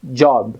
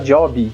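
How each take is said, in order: First: It ends in a very weak b, no vowel. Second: An extra "i" vowel is added after the final b. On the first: The speaker calls it right. "a pronúncia original é job, O B quase não aparece" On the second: The speaker calls it wrong. "aqui no Brasil a gente tem mania de colocar um i no final"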